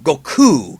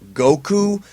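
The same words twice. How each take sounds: First: The stress is on the second syllable. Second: The stress is on the first syllable. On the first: The speaker calls it right. "You're supposed to emphasize the ku" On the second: The speaker calls it wrong. "Everybody refers to him as Goku"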